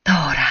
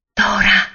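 First: A hint of trembling, falling name; mild tremble in the voice; trembling repeat. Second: A bright call, higher and louder; sudden call across the pines. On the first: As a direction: say it again, unsure and shaken. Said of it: "ripeté Mingo tremando". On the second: Acted. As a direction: call her name to wake her. Boy calls the sleeping girl.

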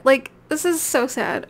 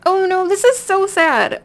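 First: Said in the usual way. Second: High, loud mock wail; hammed-up sadness, higher and louder; playful mock grief over a game death; mock lament.

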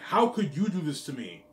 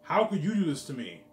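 First: Higher, louder whiny mock of her complaint; mocking whine. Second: Higher, louder, hammered again; loud mock repeat. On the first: Mocking his girlfriend's whiny accusation, higher and louder. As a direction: mimic her outrage, whining it back at her. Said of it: "I'm like". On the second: Repeating his girlfriend's complaint to viewers, loud and mocking. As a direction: throw her words back, louder.

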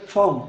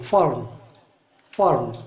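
First: फॉर्म with no r sound, "faam"; British pronunciation. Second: फॉर्म with a clear r, "farm"; American pronunciation. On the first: Teacher giving students the British फॉर्म, r dropped. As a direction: drop the r in फॉर्म, British style. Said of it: "British English वाले बोलेंगे फॉर्म". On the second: Teacher giving students the American फॉर्म, r sounded. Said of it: "American English में इसको फॉर्म बोलते हैं". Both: Shown as a demonstration.

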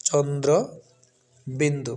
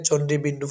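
First: চন্দ্র বিন্দু with clear dr and a pause; correct letter name. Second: চণ্ডী বিন্দু quickly, ending chon-di in ee; common mispronunciation. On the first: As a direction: separate চন্দ্র from বিন্দু, sounding the r. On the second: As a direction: run চণ্ডী বিন্দু together without an r. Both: Shown as a demonstration. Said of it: "সঠিক উচ্চারণ হচ্ছে".

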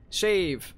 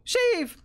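First: Said in the usual way. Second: Sudden high cry of relief; excited yelp. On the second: Real, not acted. Player spotting a save point, excited high cry. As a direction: yell it the moment you spot safety.

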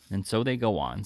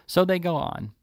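First: Said in the usual way. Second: Higher-pitched, indignant repeat; wrath rising. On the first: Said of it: "his wrath rising". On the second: A narrator's reading. Sykes recalling his wrongs, wrath rising. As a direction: let the grievance flare up suddenly. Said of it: "his wrath rising with the recollection".

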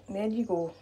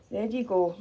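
No difference in how they are said.

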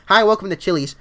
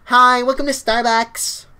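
First: Said in the usual way. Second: High, loud, drawn-out greeting; Starbucks voice. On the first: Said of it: "No, dude, you have to say it like this". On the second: Shown as a demonstration. Showing viewers how to say it, Starbucks greeter voice. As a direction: put on a stretched coffee-shop greeter voice. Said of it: "with the Starbucks voice".

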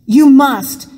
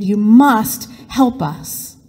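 First: Urgent, loud "You must"; urgent plea. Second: Slow, drawn-out "you must help us"; slow desperate plea. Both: Acted. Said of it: "Joseph repeated".

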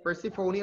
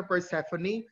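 First: Persephone as per-si-FOH-nee; long stressed O in Persephone; pronunciation per-si-FO-nee. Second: Persephone as per-SEF-uh-nee; alternative pronunciation. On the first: Teacher compares both versions, Persephone as per-si-FOH-nee first. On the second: Teacher compares both versions, Persephone as per-SEF-uh-nee second. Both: Shown as a demonstration. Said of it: "Sometimes people would pronounce it as".

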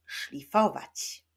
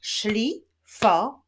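First: Said in the usual way. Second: "Szlifować" slowly split into szli, fo, wać; syllable by syllable. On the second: Shown as a demonstration. Teacher shows pupils the syllables, "Szlifować" slowly split up. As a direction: clap out "Szlifować", pausing after each syllable. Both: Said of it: "Wyklaszczmy sylaby w tym wyrazie".

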